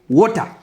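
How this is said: It is said with an African accent. "coming back to African language, we, we say water"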